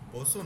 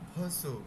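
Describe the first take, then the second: First: The word starts with a voiced b sound. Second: The word starts with a light ph sound. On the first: The speaker calls it wrong. "বসু না" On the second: The speaker calls it right. "বটা একটু হালকা হয়ে যাবে"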